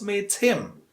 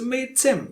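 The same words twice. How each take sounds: First: Him is said in full with a clear h. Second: Him is reduced to a weak 'im' without h. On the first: The speaker calls it wrong. "not meet him" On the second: The speaker calls it right. "you have to use im. Im is a weak form of him"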